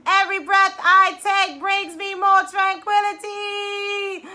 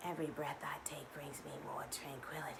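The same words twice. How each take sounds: First: Loud, higher, slow declaring; triumphant loud mantra; proclaimed affirmation. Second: Breathy whispered affirmation; hushed mantra. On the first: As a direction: shout it out with conviction. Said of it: "for this last one, biggest breath". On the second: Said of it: "affirmation taught". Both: Shown as a demonstration.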